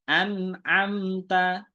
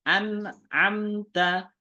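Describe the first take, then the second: No difference in how they are said.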